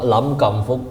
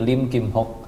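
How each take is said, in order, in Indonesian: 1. Nama ini dibaca dengan bunyi Kanton. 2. Nama ini dibaca dengan bunyi Hokkien. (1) "Kalau logat Kantonis Hong Kong Lam Kam Fuk" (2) "kalau pakai logat Hokkien jadi Lim Kim Hok"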